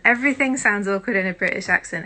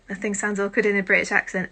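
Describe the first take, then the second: First: Hammed-up posh British accent, louder. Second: Said in the usual way. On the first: Shown as a demonstration. A streamer jokingly doing a British accent. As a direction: put on a stiff British accent for the chat.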